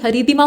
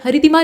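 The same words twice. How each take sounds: First: हरितिमा with long ee after r. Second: हरितिमा with short i after r; quick second vowel in हरितिमा; wrong short i. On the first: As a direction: say हरितिमा as ha-ree-timaa. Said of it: "बल्कि हरितिमा होता है". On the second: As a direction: say हरितिमा as ha-ri-timaa. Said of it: "हरितिमा नहीं बल्कि". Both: Shown as a demonstration.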